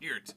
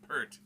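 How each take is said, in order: First: The vowel sounds like the one in 'here'. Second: The vowel sounds like the one in 'her'. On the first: The speaker calls it right. "it's Peart" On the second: The speaker calls it wrong. "It's not Pert"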